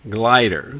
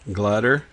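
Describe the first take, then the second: First: The first vowel is a long i sound. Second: The first vowel is a schwa sound. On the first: "try the long sound" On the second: "try the schwa sound"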